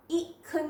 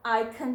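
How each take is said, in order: First: "ईखन" begun with an i sound, not "eye"; wrong short vowel. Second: "आईखन" opening on a clear "eye"; long vowel I. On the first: Teacher warning against the misreading, wrong first vowel. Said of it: "ईखन नहीं पढ़ना होगा". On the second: Teacher giving the correct reading, long I. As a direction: say "आईखन" with the first vowel as its letter name. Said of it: "आईखन पढ़ना होगा". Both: Shown as a demonstration.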